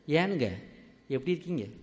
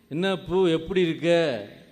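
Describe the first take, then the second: First: It is spoken in soft Kongu Tamil style. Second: It is spoken in Madurai Tamil style.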